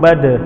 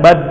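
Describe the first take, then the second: First: The final d ends with a bouncing release. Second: The final d stops flat without a release. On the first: The speaker calls it right. "Da itu sifat yang melekat padanya itu adalah kol-kolah" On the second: The speaker calls it wrong. "Jangan bad"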